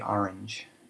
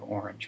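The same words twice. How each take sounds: First: Orange is said with a Brooklyn accent. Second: Orange is said without a Brooklyn accent. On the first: This is how the older generation said it. "he would say orange" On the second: This is how the children said it. "We would all say orange"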